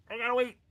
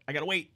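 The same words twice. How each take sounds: First: Higher whiny repeat. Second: Said in the usual way. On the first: Acted. Streamer mock-whines about waiting for witch water, raised pitch.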